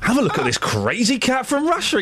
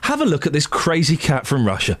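First: The tone is mocking and sarcastic. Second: The tone is earnest and sincere. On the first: The speaker calls it wrong. "Could you just be a little less sarcastic" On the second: The speaker calls it right. "I sounded sincere"

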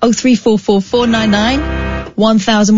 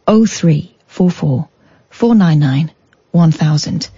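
First: The number is said at a quick pace. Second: The number is said at a slow pace.

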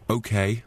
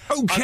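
First: The word is said in a reluctant tone. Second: The word is said in an enthusiastic tone. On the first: The speaker agrees unwillingly. The speaker calls it wrong. "don't say okay reluctantly" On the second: The speaker agrees eagerly. The speaker calls it right. "Say okay with enthusiasm"

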